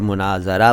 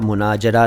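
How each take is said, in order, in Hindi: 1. बीच का व्यंजन z की ध्वनि है। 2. बीच का व्यंजन j की ध्वनि है। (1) "मुनाज़रा बोला था" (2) "मुनाजरा नहीं बोला"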